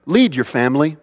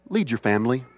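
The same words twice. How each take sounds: First: Said in the usual way. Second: Soft urging. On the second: Shown as a demonstration.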